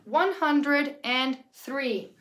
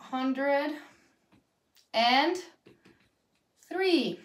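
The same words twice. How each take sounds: First: Whole number, slowly. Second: Hundred... and... three, each word on its own. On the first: Teacher repeating the number for students, slow and connected. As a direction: say the full number in one slow run. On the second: Teacher dictating a number to students, word by word. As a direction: dictate each word separately with long pauses. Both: Shown as a demonstration.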